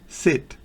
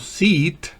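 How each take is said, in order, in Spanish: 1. La vocal es un sonido i corto y seco. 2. La vocal es un sonido ee largo, como en seat. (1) "se pronuncia como una I bien corta" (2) "estoy pronunciando S E A T"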